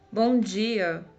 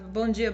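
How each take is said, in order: First: It is said warmly and sincerely. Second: It is said in an irritated way.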